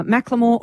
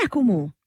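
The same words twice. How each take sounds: First: the name as MACK-luh-more; first pronunciation. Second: the name as MACK-ul-more, pitched up; alternative pronunciation. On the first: Host offering a name, said MACK-luh-more. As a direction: say the name with the L joined to the middle syllable. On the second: Host querying the name, said MACK-ul-more. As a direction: say the name with the vowel before the L. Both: Shown as a demonstration. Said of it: "or is it Macklemore".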